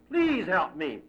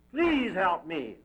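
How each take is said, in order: First: A second call, quicker; plain shout. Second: Drawn-out cry for help, slow; slow shout. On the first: Man calling again into darkness, quicker plea. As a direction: repeat the plea at normal pace. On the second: Man lost in the darkness, slow calling out. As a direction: stretch every word into the dark. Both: A narrator's reading. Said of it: "the man shouts into the darkness".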